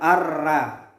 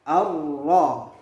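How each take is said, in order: First: The R is pronounced thin and light. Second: The R is pronounced thick and heavy. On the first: The speaker calls it wrong. "bukan ar-ra" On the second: The speaker calls it right. "dibaca tafkhim atau tebal"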